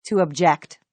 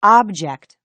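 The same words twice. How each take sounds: First: "object" stressed on the second syllable, uhb-JECT; verb stress. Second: "object" stressed on the first syllable, OB-ject; noun stress. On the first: Teacher showing the verb, "object" as uhb-JECT. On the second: Teacher showing the noun, "object" as OB-ject. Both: Shown as a demonstration.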